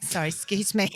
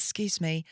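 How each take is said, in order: First: A little louder, more pointed second try; raised, apologetic nudge for attention; insistent excuse me. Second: Said in the usual way. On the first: Retold or imitated. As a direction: politely insist on getting their attention. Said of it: "so I tapped him". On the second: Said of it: "went like this".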